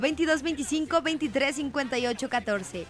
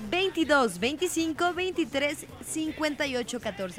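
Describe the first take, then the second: First: The number is said at a faster pace. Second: The number is said more slowly.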